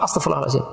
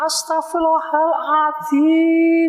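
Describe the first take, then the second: First: It is rushed out very fast. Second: It is said high-pitched and snappish.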